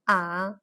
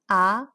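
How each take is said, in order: First: The pitch dips low, then rises again. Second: The pitch climbs upward toward the end. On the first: "The third tone, also known as inflection tone" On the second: "the second tone, also known as rise tone"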